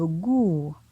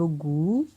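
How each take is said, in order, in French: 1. La syllabe a un ton descendant. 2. La syllabe a un ton montant. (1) "pointon descendant" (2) "Pointon montant"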